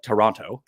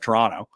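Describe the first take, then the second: First: The name is said the way outsiders say it. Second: The name is said the way locals say it. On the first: The speaker is not from that city. "I call it Toronto" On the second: This is how people from that city say it. "instead of Toronto, as they do there"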